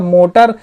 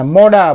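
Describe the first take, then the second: First: The middle consonant is a clear T sound. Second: The middle consonant is a soft D sound. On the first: "मोटर नहीं बोलेंगे American accent में" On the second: "मोडा बोलते हैं"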